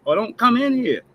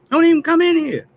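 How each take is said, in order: First: Said in the usual way. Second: Much higher, louder, yelled at the politicians; angry shout. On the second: Real, not acted. Telling pandering politicians to stay out, yelling. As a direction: blow up and yell it at them.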